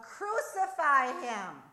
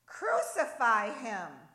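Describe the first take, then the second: First: Full-force, drawn-out mob shout, pitched higher; very loud, high, slow yell; even louder cry. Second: Loud, drawn-out shout; slow, forceful chant-like yell; crowd's shout. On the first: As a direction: bellow it over the crowd. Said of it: "Even louder, the cries came". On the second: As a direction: cry it out as an angry mob would. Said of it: "came the response". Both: A narrator's reading.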